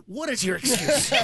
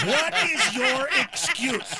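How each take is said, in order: First: Said in the usual way. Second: Slow, higher "What is your excuse?" leaning on "is"; emphatic repeat. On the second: Acted. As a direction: stretch "What is your excuse?" out, pushing each word.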